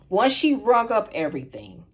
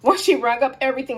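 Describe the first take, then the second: First: It is said slowly. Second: It is said fast.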